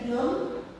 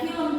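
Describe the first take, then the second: First: The word is said in an altered local pronunciation. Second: The word keeps its original foreign pronunciation. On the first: The speaker is not educated. "jadi film" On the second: The speaker is educated. "yang tadinya film"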